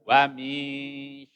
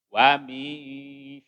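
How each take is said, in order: The two takes are said the same way.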